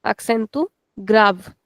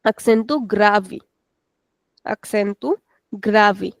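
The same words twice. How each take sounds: First: Acento grave with the final e of grave silent, ending on the v; European Portuguese pronunciation. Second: Acento grave with the final e of grave sounded as i, gravi; Brazilian Portuguese pronunciation. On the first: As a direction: European style: grave said as one syllable, grav. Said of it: "we don't pronounce it at the end". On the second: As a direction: Brazilian style: stretch grave into two syllables, gra-vi. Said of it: "we give a little extension". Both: Shown as a demonstration.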